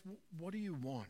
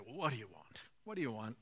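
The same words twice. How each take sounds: First: Soft, sincere open question; gentle invitation. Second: Mock brusque "what do you want", pitched low; imitating a put-out reply, dropping lower; dismissive question. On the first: Retold or imitated. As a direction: ask it softly as an invitation. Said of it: "I think Jesus actually turns around". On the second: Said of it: "Jesus could say".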